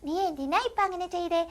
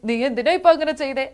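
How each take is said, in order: First: The voice sounds like a very tiny child's. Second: The voice sounds more mature and grown-up. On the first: "അതിലും കുഞ്ഞു voice ആണെങ്കിൽ" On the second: "ഒരു കുറച്ച് matured voice ആണെങ്കിൽ"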